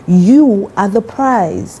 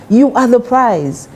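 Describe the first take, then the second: First: "You are the prize" drawn out slowly, weight on "You"; slow emphatic stress. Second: "You are the prize" again, slow and pitched higher, "You" hit hardest; higher emphatic repeat. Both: Shown as a demonstration. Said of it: "I say this all the time to ladies".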